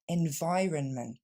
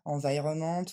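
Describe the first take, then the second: First: The stress is on the second syllable. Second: The stress is not on the second syllable. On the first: The speaker calls it right. "mais bien environment. L'accent tombe sur le son vi, la deuxième syllabe" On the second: The speaker calls it wrong. "On ne va donc pas dire environment"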